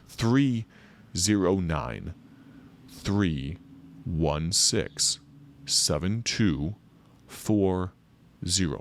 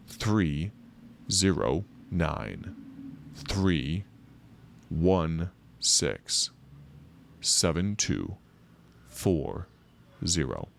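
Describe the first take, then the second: First: The number is read at normal speed. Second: The number is read more slowly.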